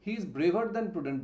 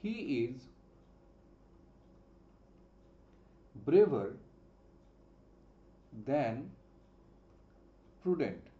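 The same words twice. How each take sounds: First: Slow read. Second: Slow dictation. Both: Shown as a demonstration. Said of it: "আমি যদি বলি".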